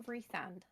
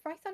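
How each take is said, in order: First: "Rysand" with first syllable like "ree"; alternative pronunciation. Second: "Rysand" with first syllable like "rye"; pronunciation option. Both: Shown as a demonstration. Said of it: "do you pronounce it Rysand or Rysand".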